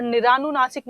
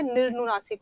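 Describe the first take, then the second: First: निरानुनासिक with aa after र; निरानुनासिक read as the wrong spelling; wrong form read out. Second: निर्नुनासिक with र joined to न, no vowel between; निर्नुनासिक read as the correct spelling; correct form given. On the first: Teacher reads out the wrong form निरानुनासिक. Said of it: "निरानुनासिक नहीं होता है". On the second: Teacher gives the correct form निर्नुनासिक. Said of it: "निर्नुनासिक होता है". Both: Shown as a demonstration.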